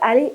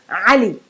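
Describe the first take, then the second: First: It starts with a plain vowel sound. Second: It starts with a guttural throat sound. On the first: The speaker calls it wrong. "It's not Ali" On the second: The speaker calls it right. "the ayn moved with a short a"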